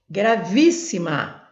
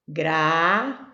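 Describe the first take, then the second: First: Gravíssima said whole with VÍS punched; stress on VÍS. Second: Syllable by syllable. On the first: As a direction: lean hard on VÍS in Gravíssima. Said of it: "a sílaba mais forte". (Gravíssima inteira, com força no VÍS) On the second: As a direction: hold each syllable of Gravíssima, pausing between. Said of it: "Eu vou separar". (Gravíssima separada em sílabas, com pausas) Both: Shown as a demonstration.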